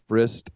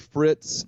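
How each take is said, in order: First: The name ends with an 'st' sound. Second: The name ends with a 'ts' sound. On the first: The speaker calls it wrong. "I've been saying Frist" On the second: The speaker calls it right. "Its name is Willie Fritz"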